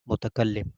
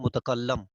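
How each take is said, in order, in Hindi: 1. Double L के बाद वाला स्वर 'i' है। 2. डबल L के बाद वाला स्वर 'a' है। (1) "लाम के ऊपर ज़ेर है" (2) "आमतौर पर बोल देते हैं मुतकल्लम, तो लाम के ऊपर ज़बर बोल देते हैं"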